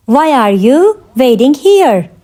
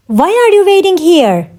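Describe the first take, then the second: First: Slower, with a pause after "you"; measured, word-grouped question; slow teaching repeat. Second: Said in the usual way. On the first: Shown as a demonstration. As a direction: separate it clearly for learners. Teacher repeats question slowly for learners.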